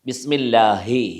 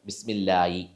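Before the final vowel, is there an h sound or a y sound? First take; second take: h sound; y sound. First: An h sound comes before the final vowel. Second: A y sound comes before the final vowel. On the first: The speaker calls it right. "ഹ എന്നുള്ളത് ഹ ഹുറൂഫ് ഹൽഖ്" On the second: The speaker calls it wrong. "ഹ എന്നുള്ള അക്ഷരത്തിന് പകരം പല ആളുകളും യാ ഉച്ചരിച്ചതായിട്ടും കാണുന്നുണ്ട്"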